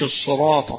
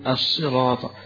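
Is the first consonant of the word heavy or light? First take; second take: heavy; light. First: The first consonant is heavy and strongly emphatic. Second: The first consonant is light, close to s. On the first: The speaker calls it wrong. "هي صاد ما هيش مفخمة، مش الصراط" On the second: The speaker calls it right. "فهي مرققة قريبة من السين"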